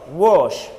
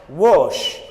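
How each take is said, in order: Both takes have the same delivery.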